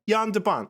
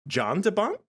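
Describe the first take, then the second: First: The first name starts with a soft Y sound. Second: The first name starts with a hard J sound.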